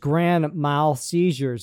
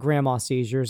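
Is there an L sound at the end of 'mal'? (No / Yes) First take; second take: Yes; No. First: The second word ends with a clear L sound. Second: The second word ends without an L sound. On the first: The speaker calls it right. "it's grand mal seizures" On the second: The speaker calls it wrong. "not grandma seizures"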